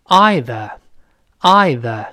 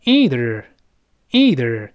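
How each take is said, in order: First: EITHER as EYE-thuh, slow and drawn out; British pronunciation. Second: EITHER as EE-ther, slow with a curled r; slow model American "either", r-coloured ending; American pronunciation. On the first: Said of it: "纯英式的发音". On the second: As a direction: say "either" the American way, long EE first. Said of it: "那美式呢，多数人读成". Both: Shown as a demonstration.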